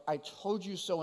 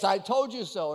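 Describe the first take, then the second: First: A soft "I told you so", said quietly with no edge; gentle. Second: A mildly mocking "I told you so", leaning on "told"; in-your-face sarcasm. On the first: Shown as a demonstration. Pastor showing how God says it, gently and softly. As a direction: say it as reassurance, not blame. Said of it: "brought in a more gentle way". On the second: People gloating over a friend's failure, lightly mocking. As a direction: rub the mistake in, lightly. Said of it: "like, in your face".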